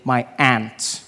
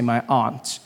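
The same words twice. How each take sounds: First: It is said in an American accent. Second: It is said in a non-American accent.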